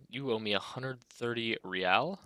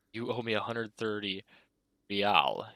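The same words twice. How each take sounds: First: Said in the usual way. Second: Real with a posh rolled R, hammed up; mock aristocratic R. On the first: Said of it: "pronounces the R with a mock aristocratic". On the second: Manager demands payment in mock aristocratic accent. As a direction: put on airs on the R of real. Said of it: "pronounces the R with a mock aristocratic accent".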